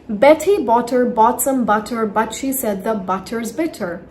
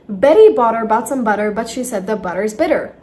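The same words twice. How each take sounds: First: The t sounds are crisp, clear t's. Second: The t sounds are soft, d-like flaps. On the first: "Now I'm going to pronounce the T as a simple T sound" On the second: "Or in flap T"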